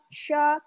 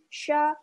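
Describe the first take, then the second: No difference in how they are said.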